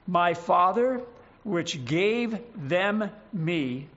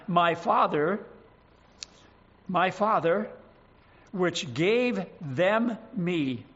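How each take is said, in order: First: Slow, every word weighted, "gave" drawn out; emphasis on each word. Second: Slow, every word weighted, "gave" stretched; emphasis on each word. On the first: Preacher repeating the verse with emphasis on every word. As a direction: press each word slowly. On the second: Preacher reading John to his flock with emphasis on every word. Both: Shown as a demonstration. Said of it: "Emphasis on each one of the, those words".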